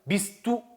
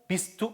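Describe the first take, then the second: First: The two words are said separately and carefully. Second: The two words run together quickly. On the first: The speaker calls it wrong. "bist du 이렇게 읽지 마시고" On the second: The speaker calls it right. "빨리 하다 보면 ... 이렇게 넘어가게 되거든요"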